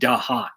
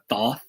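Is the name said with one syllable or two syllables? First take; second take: two syllables; one syllable. First: The name is said as two syllables, 'da-hot'. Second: The name is said as one syllable, 'thoth'. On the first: The speaker calls it right. "in Egyptian, that is pronounced Dahat" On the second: The speaker calls it wrong. "You'll hear people mispronounce it all the time. They usually call it the Thoth deck"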